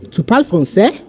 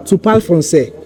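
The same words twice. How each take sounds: First: "français" rising sharply at the end; same words turned into a question by lifting "français"; question intonation. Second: "français" settling without a question rise; statement intonation. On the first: Teacher contrasting question with statement, question intonation. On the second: Teacher contrasting statement with question, statement intonation. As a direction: say "Tu parles français" as a plain statement, ending down. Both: Shown as a demonstration. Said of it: "the intonation is different".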